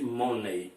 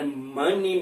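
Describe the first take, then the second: First: "money" as "MOH-nay"; mispronounced money. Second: "money" as "MUH-nee"; short UH in "money", ending in -ee; correct money pronunciation. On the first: Teacher ruling out the Brazilian mistake, "money" as "MOH-nay". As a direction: round O in "money", ending like "day". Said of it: "e nada de money". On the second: Teacher urging learners to say it correctly, "money" as "MUH-nee". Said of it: "pronunciar correto". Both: Shown as a demonstration.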